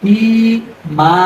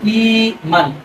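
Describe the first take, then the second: First: The word ends with a long a sound. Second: The word ends with an n sound. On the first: The reader stops at this word. "ওয়াকফ হইলে এক জবর বাদ দিয়ে একালিফ টেনে পড়তে হবে" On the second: The reader continues without stopping. "মিমি দুই জবর মান"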